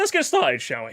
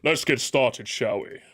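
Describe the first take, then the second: First: The voice cracks partway through the phrase. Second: The voice stays steady through the phrase. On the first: The speaker calls it wrong. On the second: The speaker calls it right.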